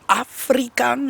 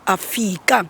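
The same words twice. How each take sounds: First: The word is said with an R sound. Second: The word is said without an R sound.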